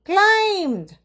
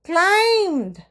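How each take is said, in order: Both takes have the same delivery.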